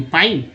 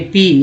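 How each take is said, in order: First: पाइन with an "eye" vowel; wrong vowel. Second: पीन with an "ee" sound; corrected vowel. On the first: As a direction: say पाइन to rhyme with "line". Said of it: "नहीं, पीन". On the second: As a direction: say पीन with "ee" in the middle, no "eye". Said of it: "यानी कि ई का इस्तेमाल हुआ". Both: Shown as a demonstration.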